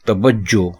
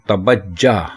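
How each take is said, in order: First: The word ends with an 'o' vowel. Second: The word ends with an 'a' vowel. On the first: The speaker calls it right. "तवज्जो दुरुस्त है" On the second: The speaker calls it wrong. "तवज्जा गलत है"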